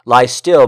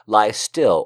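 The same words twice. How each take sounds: First: "Lie still" pushed out loud, pleading; urgent plea. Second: Lie stressed, falling gently; "lie still" repeated with a falling close; softer echo. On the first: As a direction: still louder and pressed, urging. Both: Shown as a demonstration.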